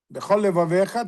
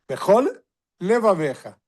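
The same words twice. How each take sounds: First: The two L sounds merge into one. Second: Two separate L sounds are pronounced. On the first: The speaker calls it wrong. "tem só um Lamed" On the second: The speaker calls it right. "Tem que ter dois L, um de Bechol e outro de Levavecha"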